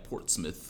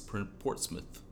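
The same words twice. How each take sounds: First: The name is said with the local pronunciation. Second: The name is said with the standard pronunciation. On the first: This is how residents of the city say it. "people from Portsmouth pronounce it like Portsmouth" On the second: This is how the name is properly said. "but it's Portsmouth"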